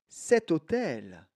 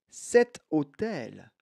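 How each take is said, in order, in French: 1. Un son t relie les deux mots. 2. Un son t relie les deux mots.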